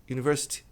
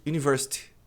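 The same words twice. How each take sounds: The two takes are said the same way.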